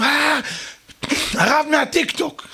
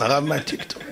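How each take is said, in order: First: High-pitched mock crowd cheer; excited crowd cry. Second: Said in the usual way. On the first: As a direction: hail a celebrity as the whole crowd. Crowd greets the rabbi's entrance. (קריאת התלהבות של קהל)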